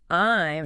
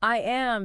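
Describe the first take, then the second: First: It is said as one contracted word. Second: It is said as two full words.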